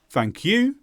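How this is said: The pitch starts low and rises on 'you'. The speaker sounds annoyed or disappointed. The speaker calls it wrong. "never start low and go up"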